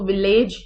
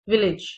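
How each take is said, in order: First: The second vowel sounds like 'e' in 'bed'. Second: The second vowel sounds like 'i' in 'bit'. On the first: The speaker calls it wrong. "इसको विलेज नहीं पढ़ते" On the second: The speaker calls it right. "ए sound जो है वो सिर्फ आई, small आई की sound देती है"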